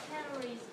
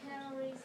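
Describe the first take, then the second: The two takes are said the same way.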